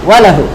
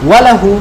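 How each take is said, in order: The two takes are said the same way.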